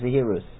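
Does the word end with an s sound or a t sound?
s sound. The word ends with an s sound.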